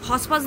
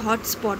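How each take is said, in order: First: The t sounds are dropped from the word. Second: The t sounds are clearly pronounced in the word. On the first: The speaker calls it wrong. "হসপস দেয় না" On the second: The speaker calls it right. "আমি যে ওটা হটস্পট মা"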